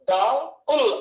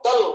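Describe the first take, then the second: First: డల్ pulled apart as "డా... ఉల్"; two separate beats, డా and ఉల్; split into two parts. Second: Said in the usual way. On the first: Shown as a demonstration. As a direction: break డల్ after డా, then add ఉల్. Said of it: "లేకపోతే డల్ అని ఒకేసారి". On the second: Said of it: "డల్ ఒకే పలుకుతాం".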